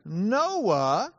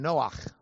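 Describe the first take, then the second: First: Said in the usual way. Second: "Noach" ending in a throaty Hebrew ch; Hebrew pronunciation. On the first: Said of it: "You would probably want to pronounce his name". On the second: Shown as a demonstration. Preacher shows the name in Hebrew, "Noach" with throaty final ch. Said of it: "pronounce his name Noach in Hebrew".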